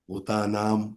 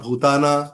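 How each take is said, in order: First: The word ends with a final m sound. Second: The word ends on a vowel without m. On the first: The speaker calls it right. "आता अद्वेष्टा सर्व भूतानाम आहे" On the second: The speaker calls it wrong. "काही जण काय म्हणणार? ... नाही, भूताना म्हणजे वेगळा अर्थ होतो"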